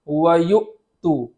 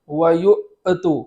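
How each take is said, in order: First: The glottal stop is held, cutting the voice off. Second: The glottal stop is released into an extra vowel. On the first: The speaker calls it right. "वहाँ आवाज़ बंद कर देंगे, इस तरह पढ़ेंगे" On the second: The speaker calls it wrong. "आवाज़ वापस लौट ना आए, वरना ये मुतहर्रिक हो जाएगा"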